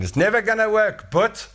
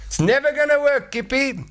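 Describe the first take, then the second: First: Much higher scoffing caveman; high mocking skeptic's voice; doubting caveman. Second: Very high squeaky mocking voice; shrill mocking skeptic caveman; doubting caveman. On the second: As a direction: needle Kippy in a squeaky sneer. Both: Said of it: "somebody's saying".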